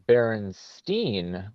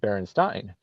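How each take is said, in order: First: The last syllable sounds like 'stain'. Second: The last syllable sounds like 'stine'. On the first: "why are we saying Berenstein when it's spelled like Frankenstein?" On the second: "spelled like Frankenstein? Shouldn't shouldn't shouldn't we be saying Berenstein?"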